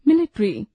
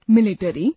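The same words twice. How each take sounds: First: Said in the usual way. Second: मिलिट्री said as मिलिटरी with an extra vowel before र; wrong pronunciation. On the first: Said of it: "शुद्ध उच्चारण". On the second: Shown as a demonstration. Teacher showing the learners' common error, deliberately wrong. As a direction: split ट्र into टर: मिलि-टरी. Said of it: "अशुद्ध उच्चारण".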